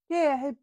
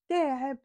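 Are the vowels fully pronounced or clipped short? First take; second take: clipped; clipped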